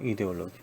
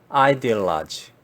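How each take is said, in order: First: It is said as the Korean loanword. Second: It is said with an English pronunciation. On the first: "한국에서 팟캐스트 들으면서 이제 이데올로기 이데올로기 그러더라고요" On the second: "영어 발음식으로 해보겠습니다"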